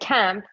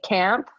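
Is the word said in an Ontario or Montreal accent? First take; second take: Montreal; Ontario. First: It is said with a Montreal accent. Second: It is said with an Ontario accent.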